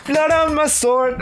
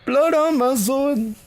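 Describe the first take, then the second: First: Squeaky high-pitched disbelief; a laughing falsetto echo; high mock gasp. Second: Drawn-out high-pitched echo; mock-dramatic falsetto; slow falsetto. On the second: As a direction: stretch it out in a squeaky high voice. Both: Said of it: "The blood is on your sword".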